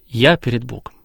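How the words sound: The stress falls on the word я. The one praying puts himself at the center. "Акцент на «я»"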